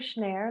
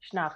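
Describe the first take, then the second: First: The vowel sounds like the English word 'air'. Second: The name is said the German way. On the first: "I prefer Schnär, like air" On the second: "It's the German way to say Schnarr"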